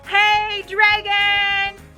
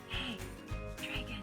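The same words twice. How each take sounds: First: It is shouted very loudly. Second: It is whispered very softly.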